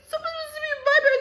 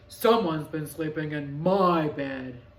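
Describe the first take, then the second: First: It is said in a whiny, crying voice. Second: It is said in a plain, not whiny voice.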